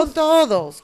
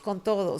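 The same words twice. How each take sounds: First: Todos stressed, higher and louder; emphatic. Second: Said in the usual way. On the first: Real, not acted. Answering the cohost, todos stressed higher and louder. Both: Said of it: "¿Contigo y con todos?".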